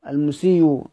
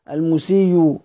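No difference in how they are said.

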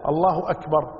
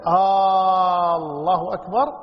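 First: Said in the usual way. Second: آه الله أكبر sung slowly with a rising أكبر; wrong questioning Aah. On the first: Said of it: "فإذا". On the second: Shown as a demonstration. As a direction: drawl آه and lift أكبر as a question. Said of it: "عندما تسأل". (آه الله أكبر بنبرة سؤال خاطئة)

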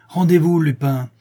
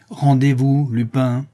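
First: Higher, louder command to surrender; shouted order. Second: Lupin mimicking the brigadier's order; louder mock command; mocking repeat. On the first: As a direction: bark the order with gun raised. Brigadier aims and orders. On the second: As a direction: parrot the command back, mocking. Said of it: "Je disais donc". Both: A narrator's reading.

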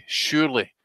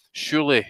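No difference in how they are said.

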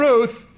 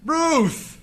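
First: Loud call after her as she leaves. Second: Higher, pleading call of Ruth; desperate second call. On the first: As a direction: call her back before she goes. Calling after departing wife. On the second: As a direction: call again, more urgent, as she is gone. Calling again, more desperate. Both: Acted.

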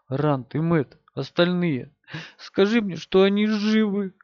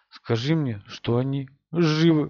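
First: Pleading. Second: Mumbled into his chest; muffled, face pressed in a shirt; face in shoulder. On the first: Girl pleads, pitch rising. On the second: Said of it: "пробормотала девушка ему в грудь". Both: A narrator's reading.

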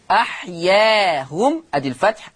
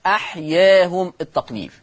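First: أحياهم with a fully open a before hum; fatḥ on alif. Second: أحياهم with the alif tilted toward e; taqlīl on alif. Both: Shown as a demonstration.

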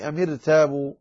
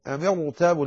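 First: "أم ارتابوا" with a light, thin ra; wrong light ra. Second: "أم ارتابوا" with a heavy, full ra. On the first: Teacher showing the misreading, "أم ارتابوا" with light ra. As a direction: say "أم ارتابوا" with the ر thinned. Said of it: "لا تقرأها". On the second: Teacher correcting the reading, "أم ارتابوا" with heavy ra. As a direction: thicken the ر in "أم ارتابوا". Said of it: "لأنها ليست كسرة أصلية". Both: Shown as a demonstration.

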